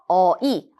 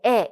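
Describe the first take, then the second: First: The vowel glides as two sounds, eo then i. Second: The vowel is one steady sound. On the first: This is the medieval reading. "중세국어의 경우에는 아이, 어이로 읽는다" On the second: This is the modern reading. "현대국어는 에, 에 이렇게 발음을 하죠"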